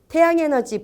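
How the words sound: The two words are joined in one breath. The speaker calls it right. "붙여서 얘기하죠"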